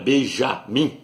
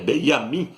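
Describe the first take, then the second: First: The name begins with a 'zh' sound. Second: The name begins with a 'y' sound. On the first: The speaker calls it wrong. "não é Benjamim" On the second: The speaker calls it right. "porque no hebraico não tem a letra J"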